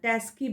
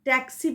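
First: The middle cluster is 'sk'. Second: The middle cluster is 'ks'. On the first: The speaker calls it wrong. "ট্যাস্কি বলছেন" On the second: The speaker calls it right. "ট্যাক্সি বলছেন না"

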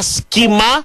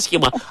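First: The middle consonant is a hard k sound. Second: The middle consonant is a rough ch sound. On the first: "με κάπα" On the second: "Όχι με χι"

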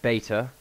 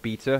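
First: The word is said with an American pronunciation. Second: The word is said with a non-American pronunciation. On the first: The speaker calls it wrong. "Not beta, you American scum" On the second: The speaker calls it right. "because that is the correct way of saying it"

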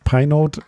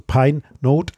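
First: The name is said quickly, run together. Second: The name is said slowly, word by word.

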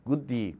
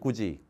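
First: The middle consonant is a hard d sound. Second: The middle consonant is a soft j sound. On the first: "혀에 텐션이 걸리게 돼 있어" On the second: "지가 훨씬 더 편하잖아"

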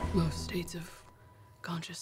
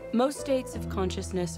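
First: It is said in a put-on character's accent. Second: It is said in the speaker's normal accent. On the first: "do it in the voice" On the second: "I'm gonna resist the urge to say these quotes in the accent"

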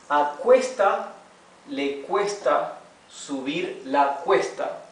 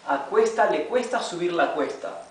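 First: It is read slowly, word by word. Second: It is read at a faster pace. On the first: "Comenzaremos leyendo palabra por palabra. Despacio, slowly" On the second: "de a poco iremos leyéndolo más rápido, faster"

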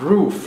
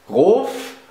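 First: It is pronounced as an English word. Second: It is pronounced as a German word.

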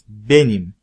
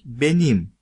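First: The stress is on the first syllable. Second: The stress is on the last syllable. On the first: It is me. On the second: Mine.

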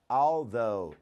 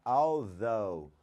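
No difference in how they are said.

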